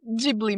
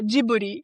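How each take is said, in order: First: It is pronounced the way it is spelled. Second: It is pronounced in a Japanese-style way. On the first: This follows the written form. "falar da forma que tá escrito" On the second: This is how people say it in Japan. "um jeito mais japonês"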